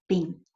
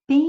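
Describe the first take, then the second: First: Said in the usual way. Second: "Pente" with "Pen" held very long, then short "te"; stress on PEN. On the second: Shown as a demonstration. Teacher showing students the tonic syllable, "Pen" drawn out in "Pente". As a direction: stretch the first syllable of "Pente" right out. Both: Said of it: "o pen é a sílaba tônica".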